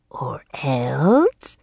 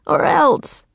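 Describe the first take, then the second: First: Whispery, drawn-out rising question; mocking Raven King. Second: Put-on high-pitched childish threat; defiant young girl. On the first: Raven King mocks the girl's threat, whispered. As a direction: echo the threat in a sinister whisper. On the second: Girl threatens the Raven King, high and defiant. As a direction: threaten boldly in a high girl's voice. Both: A narrator's reading.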